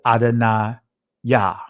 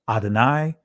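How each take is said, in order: First: The word ends with an added 'ah' syllable. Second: The word ends on a final 'eye' sound. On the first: The speaker calls it right. "but it's Adonaiah, right? In ancient Hebrew" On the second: The speaker calls it wrong. "many of you guys will pro- pronounce it Adonai"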